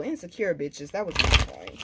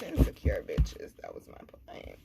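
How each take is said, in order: First: Said in the usual way. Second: Hushed whisper; sly whispered repeat; whispered aside. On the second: Real, not acted. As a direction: whisper it like a secret dig.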